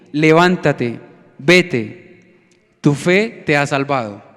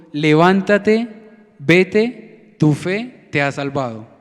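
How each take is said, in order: No difference in how they are said.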